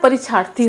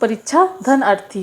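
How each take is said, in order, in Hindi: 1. दोनों भाग जल्दी बोलने से मिलकर एक शब्द बन जाते हैं। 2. दोनों भाग अलग-अलग बोले जाते हैं, आपस में मिलते नहीं। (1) "इसको मैं जल्दी से बोलती हूँ" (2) "अलग अलग अगर इसको कर रहे हैं तो"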